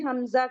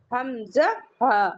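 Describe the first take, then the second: First: Said in the usual way. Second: حمزہ ہا said slowly, with the final ہا clearly voiced; correct letter name. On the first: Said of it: "حمزہ نہیں ہے". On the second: Shown as a demonstration. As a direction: spell it out slowly as حمزہ ہا, not just حمزہ. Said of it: "کیا ہے؟". (آہستہ اور صاف حمزہ ہا)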